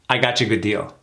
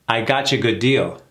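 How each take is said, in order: First: The sentence is said quickly at natural speed. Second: The sentence is said at a moderate speed. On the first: "A little faster" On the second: "Now let's do it again a little faster"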